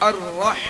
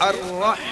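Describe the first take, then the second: The two takes are said the same way.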